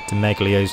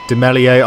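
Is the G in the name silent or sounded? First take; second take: sounded; silent. First: The G in the middle is pronounced. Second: The G in the middle is left silent. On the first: "got so used to people saying it with the G" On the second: "some people say that the G's silent"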